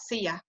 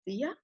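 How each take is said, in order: First: It is said at normal loudness. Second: It is said more softly.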